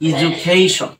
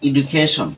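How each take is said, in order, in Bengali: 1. মাঝের ব্যঞ্জনবর্ণটি একটি 'j' ধ্বনি। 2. মাঝের ব্যঞ্জনবর্ণটি একটি সাধারণ 'd' ধ্বনি। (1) "এর সঠিক প্রনাউন্সিয়েশনটা হবে কি" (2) "এটাকে আমরা সবসময় কি বলি, ... কিন্তু আসলে এটা এডুকেশন হবে না"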